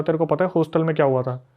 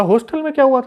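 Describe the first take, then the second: First: Said in the usual way. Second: High-pitched echo of the question. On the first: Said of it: "हर्षित और उसके दोस्तों ने बोला". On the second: Retold or imitated. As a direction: throw the question back, pitched way up. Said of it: "बोला".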